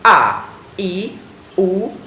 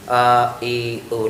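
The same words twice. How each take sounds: First: The vowels are pronounced clearly and distinctly. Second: The vowels are mumbled and unclear. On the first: The speaker calls it right. "pengucapannya harus jelas" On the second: The speaker calls it wrong. "Tidak tidak seperti"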